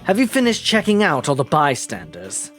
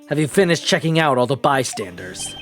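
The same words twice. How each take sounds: First: It is said in a put-on character voice. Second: It is said in an American accent. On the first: "I do the Van Zyke's voice" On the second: "the American version"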